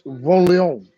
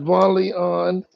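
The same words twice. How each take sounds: First: The name is said with a French accent. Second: The name is said in a plain accent.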